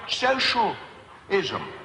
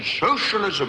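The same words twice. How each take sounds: First: It is said calmly and plainly. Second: It is spat out like something frightening. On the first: The idea is a reasonable proposal. The speaker calls it right. "that's not how it's pronounced" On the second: The idea is a dangerous threat. The speaker calls it wrong. "spat out on the media as if it was a sort of disease"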